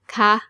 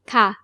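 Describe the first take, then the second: First: The pitch stays high across the syllable. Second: The pitch falls across the syllable. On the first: It ends a question. "And for questions with a high tone" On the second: It ends a normal statement. "For normal statements with a falling tone"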